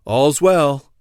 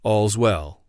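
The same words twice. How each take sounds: First: Louder watch call, moderately raised; a moderate narrated cry; sentry's cry. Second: Understated, reassuring watch cry; subdued echo of the sentry's call; peace and safety cry. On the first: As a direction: call it out from your post. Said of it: "step back and cry again". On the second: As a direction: say it low-key, as a sign of safety. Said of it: "peace and safety cry". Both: A narrator's reading.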